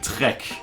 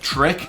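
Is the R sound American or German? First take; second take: German; American. First: The R is a German throaty R. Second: The R is an American English R. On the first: "I would say trek" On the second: "instead of track"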